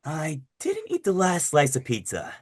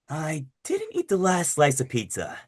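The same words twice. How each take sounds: First: It is Adagio's voice, near natural, slightly dragged out. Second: It is Adagio's voice, near natural, slightly dragged out.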